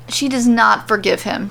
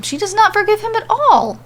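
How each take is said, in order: First: Said in the usual way. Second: "not" punched much higher, firm fall on "at all"; stress on not. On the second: A narrator's reading. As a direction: hit "not" hard and high. Narrator repeats line for emphasis.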